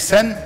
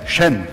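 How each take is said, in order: First: The name begins with a plain s sound. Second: The name begins with a sh sound. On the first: The speaker calls it wrong. "Nicht Sen" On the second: The speaker calls it right. "Habe ich vorhin falsch vorgelesen"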